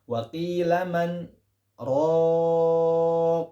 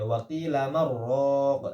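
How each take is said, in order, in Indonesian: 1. Ada henti sunyi singkat setelah 'man'. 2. Bunyi n menyatu ke r tanpa jeda. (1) "seperti itu dengan sakta" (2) "idgham marraq"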